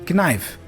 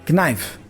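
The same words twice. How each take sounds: The two takes are said the same way.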